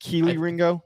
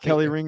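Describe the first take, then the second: First: The first name is said like 'Keely'. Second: The first name is said like 'Kelly'. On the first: The speaker calls it right. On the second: The speaker calls it wrong. "It's not"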